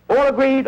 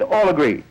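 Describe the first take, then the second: First: High rising question. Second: Said in the usual way. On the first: Acted. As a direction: ask the group, pitched up. Asking the tribe to agree.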